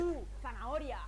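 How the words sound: Tu is stressed and set apart from zanahoria. The speaker calls it wrong. "No decimos"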